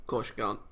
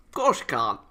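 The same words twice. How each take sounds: First: Said in the usual way. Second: Louder snippy comeback; mock indignant jab; louder sarcastic retort. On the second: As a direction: bite back at the line.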